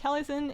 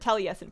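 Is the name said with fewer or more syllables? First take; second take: fewer; more. First: The name is said with fewer syllables. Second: The name is said with more syllables. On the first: The speaker calls it wrong. "I didn't give it enough syllables before" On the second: The speaker calls it right. "Or Taliesin, pardon me"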